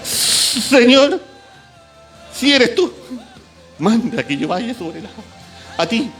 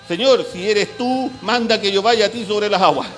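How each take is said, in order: First: It is said in a trembling, frightened voice. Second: It is said in a steady, plain voice.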